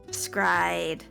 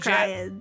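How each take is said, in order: First: The name starts directly with an s sound. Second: The name starts with an extra vowel sound. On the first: The speaker calls it right. "so it's Scryed" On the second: The speaker calls it wrong. "I say Escryad"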